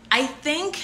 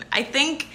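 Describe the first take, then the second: No difference in how they are said.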